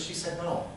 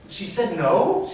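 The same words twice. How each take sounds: First: Softer, matter-of-fact answer; deadpan confirmation. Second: High, loud, drawn-out echo question; incredulous question. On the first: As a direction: confirm it without any fuss. Cashier flatly confirms the refusal. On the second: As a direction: throw it back in disbelief. Customer repeats the answer as question. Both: Retold or imitated.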